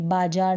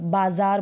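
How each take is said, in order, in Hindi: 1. बीच का व्यंजन j वाली आवाज़ है। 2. बीच का व्यंजन z वाली आवाज़ है। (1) "बाजार नहीं बोलेंगे" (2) "ज के नीचे बिंदी लग जाती है तो इसका प्रोनाउंसिएशन... बाजार बोलेंगे"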